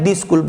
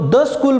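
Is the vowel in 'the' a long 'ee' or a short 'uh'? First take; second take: ee; uh. First: The word 'the' has a long 'ee' vowel. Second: The word 'the' has a short 'uh' vowel. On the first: The speaker calls it wrong. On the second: The speaker calls it right.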